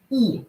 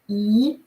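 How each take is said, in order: First: The pitch falls sharply from high. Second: The pitch rises from mid to high. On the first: "Falling tone" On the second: "E with the rising tone"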